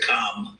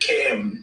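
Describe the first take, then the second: First: The vowel sounds like the o in calm. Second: The vowel sounds like the a in cat. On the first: The speaker calls it wrong. "as opposed to Com. But we don't like Com" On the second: The speaker calls it right. "Cam, as opposed to Com"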